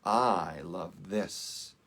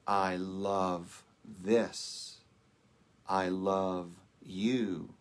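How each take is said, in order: First: I pressed hard, the words slow; stress on I. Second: Slow and a little lower, the stress spread evenly; deeper, tender love. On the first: Minister demonstrating love from the soul, with stress on I. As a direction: lean into I to show the self speaking. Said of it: "the emphasis is on I". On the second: Minister contrasting love from the universal self, said tenderly. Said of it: "When we go deeper". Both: Shown as a demonstration.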